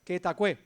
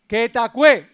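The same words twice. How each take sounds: First: "Que tacué" repeated softly, Andalusian style, the syllables run together; soft explanatory Andalusian "Que tacué"; Andalusian pronunciation. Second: "Que tacué" said loudly, Andalusian style, the syllables clipped together; loud Andalusian "Que tacué" with the consonants eaten; Andalusian pronunciation. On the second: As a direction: belt out "Que tacué" the Andalusian way, words swallowed. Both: Shown as a demonstration. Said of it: "En andaluz se dice así".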